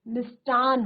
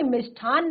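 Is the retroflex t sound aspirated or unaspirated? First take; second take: unaspirated; aspirated. First: The retroflex t sound is unaspirated. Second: The retroflex t sound is aspirated. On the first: The speaker calls it right. "मिष्टान होता है" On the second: The speaker calls it wrong. "मिष्ठान नहीं होता"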